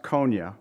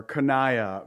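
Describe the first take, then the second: First: Coniah said "KOHN-yuh"; two syllables in Coniah, stress on "KOHN"; corrected pronunciation. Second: Coniah said "kuh-NYE-uh"; three syllables in Coniah, stress on "NYE"; common alternative pronunciation. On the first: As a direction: say Coniah with a long O, then "yuh". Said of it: "but it's pronounced Coniah". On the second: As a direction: say Coniah to rhyme with Isaiah. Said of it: "many say, but it's pronounced". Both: Shown as a demonstration.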